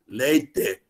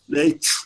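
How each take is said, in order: First: The t is plain, without a blown puff. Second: The t is said with a blown puff. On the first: This is how the speaker's home region says it. "Eu falava leite" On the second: This is how people in the neighbouring region say it. "soprando leite, assim"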